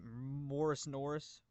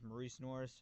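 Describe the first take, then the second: First: The first name sounds like Morris. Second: The first name sounds like Maurice. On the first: This is the speaker's habitual nickname-like pronunciation. The speaker calls it wrong. "I always pronounced it Morris Norris" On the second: This is the player's actual name. The speaker calls it right. "His name is Maurice Norris"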